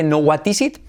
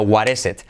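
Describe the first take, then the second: First: "what is it" with a hard T and a clear I; wrong take. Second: "what is it" with the T as a soft tapped R and each I like E. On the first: Teacher showing the wrong "what is it". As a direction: spell out "what is it" as written, hard T, I as in it. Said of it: "no what is it, sino what is it". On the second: Teacher modelling the right "what is it" to students. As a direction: say "what is it" as "waɾ es et". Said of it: "sino what is it". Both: Shown as a demonstration.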